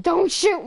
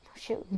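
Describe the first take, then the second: First: Urgent shout. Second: Said in the usual way. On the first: Real, not acted. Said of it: "repeated louder".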